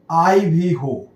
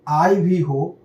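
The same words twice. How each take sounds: The two takes are said the same way.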